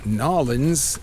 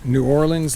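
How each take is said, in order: First: The name is squeezed into two syllables. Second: All syllables of the name are pronounced. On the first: "or Nolans, as they say" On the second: "instead of saying New Orleans"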